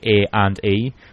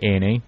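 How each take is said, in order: First: The words are said separately, in the other accent. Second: The words run together, in the speaker's accent.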